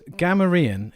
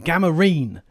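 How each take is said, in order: First: The stress is on the first syllable. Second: The stress is on the last syllable. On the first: "the emphasis is on the gam" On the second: "the emphasis on the last part"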